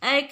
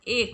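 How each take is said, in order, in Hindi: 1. स्वर 'ai' की तरह सुनाई देता है। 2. स्वर 'e' की तरह सुनाई देता है। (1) "एक नहीं होता है" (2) "एक होता है"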